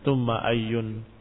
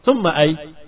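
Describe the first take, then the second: First: The word ends in an 'un' sound. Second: The word ends on the bare consonant. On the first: The word is read as standing alone. "dengan tanwin" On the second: The ending is left silent to stay safe. "kamu sukunkan selamat"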